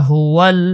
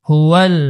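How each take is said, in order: Both takes have the same delivery.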